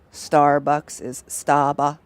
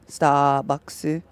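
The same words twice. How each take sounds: First: "Staba-" said slowly, Japanese syllables; "Staba-" clipped the Japanese way, slow; Japanese-style Staba. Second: "Starbucks" as Japanese "sutabakkusu", final u; "Starbucks" with Japanese vowels, rising end; Japanese-style Starbucks. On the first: Streamer demoing Japanese loanword, slow syllables. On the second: Streamer showing chat the Japanese pronunciation of Starbucks. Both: Shown as a demonstration.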